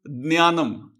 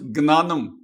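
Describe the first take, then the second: First: The word begins with a jn sound. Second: The word begins with a gn sound. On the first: "Maharashtra, it becomes Jnanam" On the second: "In Gujarat, it becomes Gnanam"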